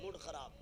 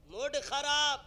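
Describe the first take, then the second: First: Said in the usual way. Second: Loud, high mock outburst; raised-voice show of a spoiled mood; angry outburst. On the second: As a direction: burst out loudly in mock annoyance.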